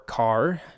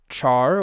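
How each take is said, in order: First: It starts with a k sound, like car. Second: It starts with a ch sound, like chair. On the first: The speaker calls it right. "I guess you should pronounce it car because it's character" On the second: The speaker calls it wrong. "I've always said char, even if that's incorrect"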